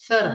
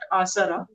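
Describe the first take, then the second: First: The consonant after the first vowel is th. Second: The consonant after the first vowel is s. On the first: The speaker calls it right. "It is a th th thara" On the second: The speaker calls it wrong. "it is not asara"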